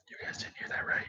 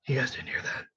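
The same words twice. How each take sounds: First: Secretive whisper to the viewers. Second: Hushed. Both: Real, not acted. Slip about workplace, hushing viewers.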